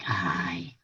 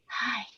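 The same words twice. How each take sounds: First: It is said in a deep, gravelly voice. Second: It is said as a light, little whisper.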